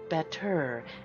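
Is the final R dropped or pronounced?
pronounced. The final R is pronounced, American style. The speaker calls it wrong. "isn't better"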